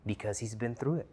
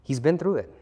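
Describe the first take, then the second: First: Said in the usual way. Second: Higher, louder, punching through; emphatic repeat. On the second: Real, not acted. Preacher driving home that Paul has been through it, emphatic. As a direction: hit through hard on the repeat.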